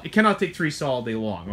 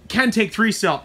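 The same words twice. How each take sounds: First: "cannot" stressed, voice dropping lower. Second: "can" hit higher and louder; stress on can. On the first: Owner warning customers, stressing "cannot". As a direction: lean on "cannot" to answer the "can". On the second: Owner contrasting trucks, stressing "can". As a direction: punch "can" to set up the contrast. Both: Shown as a demonstration. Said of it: "I can't harp on it enough".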